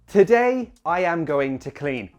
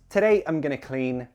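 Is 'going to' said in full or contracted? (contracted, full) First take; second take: full; contracted. First: Every word is said in full, unreduced. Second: The words are contracted and reduced to 'gonna'. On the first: "I am going to, yes, in a textbook" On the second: "much more relaxed and human if you contract this"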